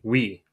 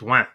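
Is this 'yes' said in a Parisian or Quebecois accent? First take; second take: Parisian; Quebecois. First: It is said with a Parisian French accent. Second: It is said with a Quebecois French accent. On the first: "Like Francais de France, I think is how they pronounce it. It would be oui" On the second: "Here it's ouin"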